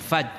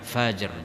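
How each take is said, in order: First: The final r sound is dropped. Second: The final r sound is clearly pronounced. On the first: It means a road or pass. The speaker calls it wrong. "jangan faj" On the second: It means the dawn. The speaker calls it right. "di sini baca fajr"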